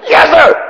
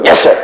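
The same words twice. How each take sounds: First: Shouted cadet reply. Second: Said in the usual way. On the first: Retold or imitated. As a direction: yell it back as a scared kid cadet. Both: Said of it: "And you go".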